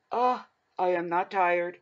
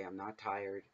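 First: Yawning through the denial, slow and higher; insisting you're not tired while a yawn takes over. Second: Said in the usual way. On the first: Real, not acted. Telling viewers she isn't tired, through a yawn. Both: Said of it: "I'm sorry for yawning".

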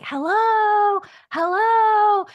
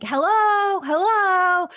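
First: High, loud, jolly hello from a woman; imitating a strange woman calling hello from downstairs; jolly woman's voice. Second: High, loud hello called up the stairs; mock shout of a visitor arriving unannounced; calling hello from downstairs. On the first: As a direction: sing it out like a cheerful lady calling. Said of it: "It was this woman's voice". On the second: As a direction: call out to the house from below. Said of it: "somebody shouting from downstairs".

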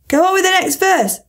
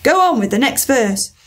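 First: Higher, pressing repeat; insistent repeat. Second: Said in the usual way. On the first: Acted. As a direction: push it, higher this time. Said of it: "the Gryphon repeated".

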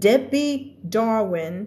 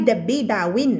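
First: "Debbie Darwin" with the R sounded in Dar; English R in DARWIN. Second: "Debbie Darwin" in Thai syllables, no R; R-less Thai-style DARWIN. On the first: Teacher modelling the name, "Darwin" with English R. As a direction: curl the R in "Darwin". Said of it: "เธอได้ยินเสียง R ไหม". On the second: Teacher showing students what not to say, "Darwin" without R. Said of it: "ไม่ใช่ Debbie Darwin". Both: Shown as a demonstration.

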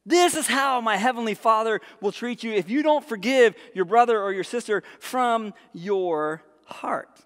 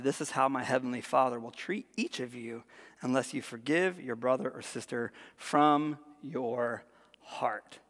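First: Raised, forceful start slowing to the end; emphatic rereading. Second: Low, soft, slowing at the end; grave reading. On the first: Preacher letting the warning sink in, emphatic repeat. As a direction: drive it home, then stretch the final words. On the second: Preacher reading Jesus' warning to the congregation, quiet gravity. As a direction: let the last words sink to near-whisper. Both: Real, not acted.

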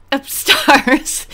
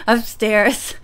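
First: UPSTAIRS with the last vowel as "ah", like upstahs; mispronounced word. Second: Said in the usual way. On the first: Real, not acted. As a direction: say "upstairs" as "up-STAHZ", loud. Repeats mispronounced word, laughing.

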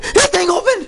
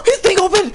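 First: High alarmed cry, repeated; panicked cry. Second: High alarmed cry; panicked cry. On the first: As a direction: still yelping in alarm. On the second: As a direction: yelp it out in panic. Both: Real, not acted. Monster wakes up.

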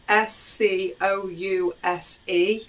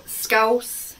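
First: Scouse spelled letter by letter, S C O U S E, slowly. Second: Scouse, lifted and set apart as the dish name; scouse said alone. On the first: Spelling the dish name out for viewers, slow and careful. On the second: Presenting the dish name to viewers, clear and lifted. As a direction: announce scouse slowly and clearly. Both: Shown as a demonstration.

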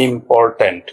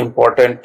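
First: "ইম্পর্ট্যান্ট" in three parts, im-por-tant; teacher's three-beat split of "ইম্পর্ট্যান্ট"; syllable by syllable. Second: Said in the usual way. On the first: Shown as a demonstration. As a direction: break "ইম্পর্ট্যান্ট" into im, por, tant with small gaps. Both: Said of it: "তিন ভাগে ভাগ করা হয়েছে".

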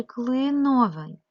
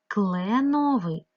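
First: "клиновий" with a clear "и" after "кл"; Y vowel variant. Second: "Кленовий" with a long open E after "Кл"; clear E vowel. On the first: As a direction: sound out "клиновий" loudly as kly-no-vyi. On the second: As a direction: sound out "Кленовий" loudly as kle-no-vyi. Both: Shown as a demonstration. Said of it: "тому що клен".

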